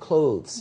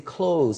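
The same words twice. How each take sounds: First: It is pronounced in the standard English way. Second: It is pronounced in a Vietnamese-influenced way. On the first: The speaker calls it right. "instead of clothes" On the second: The speaker calls it wrong. "or they say clothes"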